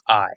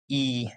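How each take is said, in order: First: The ending is said as an 'eye' sound. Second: The ending is said as an 'ee' sound. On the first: The speaker calls it right. "It's pronounced "I."" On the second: The speaker calls it wrong. "is not pronounced "e" like that"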